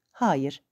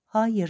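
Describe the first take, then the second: First: Said in the usual way. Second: A final "Hayır" with a firm falling end; "Hayır" as the last word, no argument. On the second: A narrator's reading. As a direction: shut it down with a decisive "Hayır". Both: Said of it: "öyle kesin söylemişti".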